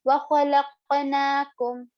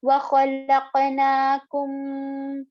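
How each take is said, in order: First: وَخَلَقْنَاكُمْ with the final m cut short; higher, quicker recitation, no humming on the closing مْ; no ghunna. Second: وَخَلَقْنَاكُمْ with the final m hummed long; held ghunna, wrong. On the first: Teacher showing the correct reading, short unheld m. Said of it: "like this". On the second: Teacher showing what not to do, overlong hummed m. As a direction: linger nasally on the closing مْ of وَخَلَقْنَاكُمْ. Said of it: "Don't do this". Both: Shown as a demonstration.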